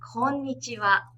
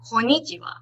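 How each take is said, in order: First: Each syllable gets equal, even length. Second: It is said fast with a syllable squeezed. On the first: The speaker calls it right. "So it's very different" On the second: The speaker calls it wrong. "which is not the right way. Don't try to say it very fast and don't try to skip the word"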